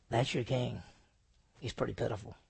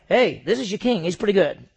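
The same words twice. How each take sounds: First: Soft, low, pitying "That's your king"; pitiful. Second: Loud, upbeat, proud presentation of a king; proud showman. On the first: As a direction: show him as a pitiful sight. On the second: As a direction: announce him like a prize. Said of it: "this is not like". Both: Shown as a demonstration.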